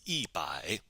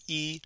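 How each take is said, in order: First: "一百" with 一 falling in fourth tone; tone sandhi. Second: "E" on a high, level first tone. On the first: Teacher showing the tone change, "一百" with 一 in falling fourth tone. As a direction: drop 一 sharply in "一百", fourth tone. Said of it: "it changes to fourth tone". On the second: Teacher showing the normal tone of one, "E" in high level first tone. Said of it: "is normally pronounced with first tone". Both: Shown as a demonstration.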